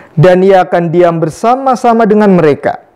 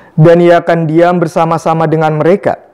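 Both takes have the same delivery.

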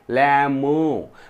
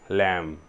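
First: A b sound is pronounced at the end. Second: No b sound is pronounced at the end. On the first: The speaker calls it wrong. "लॅम्बो नाही" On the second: The speaker calls it right. "ब नाही, लॅम"

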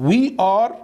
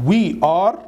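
Both takes have the same delivery.

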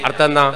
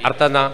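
The two takes are said the same way.

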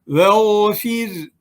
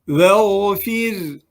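No difference in how they are said.

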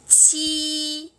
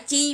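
First: The first sound has a strong puff of air. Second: The first sound has no puff of air. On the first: The speaker calls it right. "Chữ chi này nó phải bật cái hơi ra" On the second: The speaker calls it wrong. "Nó không phải chi mà"

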